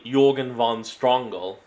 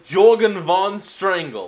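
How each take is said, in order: First: The name is said in a German accent. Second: The name is said in a plain accent.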